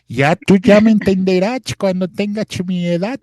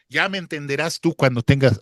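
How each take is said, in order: First: Put-on higher, louder old man voice; little old man. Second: Said in the usual way. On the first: Shown as a demonstration. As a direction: play a wise little old man lecturing. (voz de viejito sabio, más aguda y fuerte) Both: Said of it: "ahora sí ya estoy hablando como viejito".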